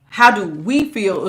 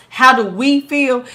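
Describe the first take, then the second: First: Slow "How do we feel?", How stretched and falling; stress on we. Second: "How do we feel?" with a slow stretched How and a lean on "we"; stress on we. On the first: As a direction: repeat "How do we feel?" slowly and evenly. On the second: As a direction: ask "How do we feel?" slowly, leaning on "we". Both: Shown as a demonstration. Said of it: "the reason why I said".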